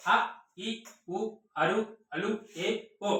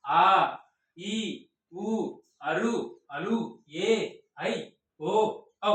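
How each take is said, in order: First: అ, ఇ, ఉ each cut short, one brief beat; brief one-beat vowels, అ, ఇ, ఉ never held. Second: ఆ, ఈ, ఊ each drawn out for two beats; lengthened vowels, ఆ, ఈ, ఊ sustained one by one; long vowels. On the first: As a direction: say each vowel from అ to ఓ quickly short, with a gap after it. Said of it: "ఒక second కాలంలో మాట్లాడేవి". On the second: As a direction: hold each vowel from ఆ to ఔ long, pausing between them. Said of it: "అంతకన్నా ఎక్కువ కాలంలో మాట్లాడితే దాన్ని". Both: Shown as a demonstration.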